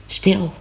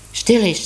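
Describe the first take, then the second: First: Said in the usual way. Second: Stil said a bit higher and louder, insisting; urgent repeat. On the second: Acted. Minoes silencing the cat as a voice calls, more insistent. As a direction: push the word Stil harder the second time.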